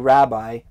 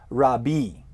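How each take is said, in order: First: It is said with an English pronunciation. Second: It is said with a Hebrew pronunciation. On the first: The speaker calls it wrong. "you don't say rabbi" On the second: The speaker calls it right. "rabbi is how it's pronounced in Hebrew"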